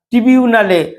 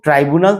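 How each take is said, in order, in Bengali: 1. প্রথম অংশ 'tri' বলা হয়। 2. প্রথম অংশ 'trai' বলা হয়। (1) "ইংরেজি উচ্চারণ করতে পারেন না" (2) "তিনি ট্রাইব্যুনাল তো বলেন না"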